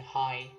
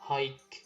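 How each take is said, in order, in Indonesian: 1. Kata itu berakhir dengan bunyi vokal. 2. Kata itu berakhir dengan bunyi k. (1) "tapi dibacanya high" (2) "jangan hike"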